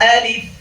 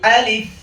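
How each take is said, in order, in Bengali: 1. শব্দটি দীর্ঘ f ধ্বনি দিয়ে শেষ হয়। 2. শব্দটি দীর্ঘ f ধ্বনি দিয়ে শেষ হয়।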